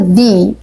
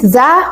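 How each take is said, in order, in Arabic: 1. الحركة صوت 'ee' طويل. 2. الحركة صوت 'uh' قصير ومفتوح. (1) "هنقول ذي لما يكون الكلمة اللي بعديها بتبدأ بحرف متحرك" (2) "ذا مع الفتحة يعني كأننا بنفتحها كده لما يكون الكلمة اللي بعديها بتبدأ بحرف ساكن"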